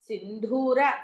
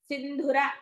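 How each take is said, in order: First: The second syllable has a long vowel. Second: The second syllable has a short vowel. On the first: The speaker calls it wrong. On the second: The speaker calls it right.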